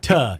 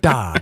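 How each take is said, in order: First: The consonant is a crisp, hard T. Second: The consonant is soft, like a D. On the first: This is how outsiders say it. The speaker calls it wrong. "not ta" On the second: This is how locals say it. The speaker calls it right. "we like our T's a little softer around here. It's da"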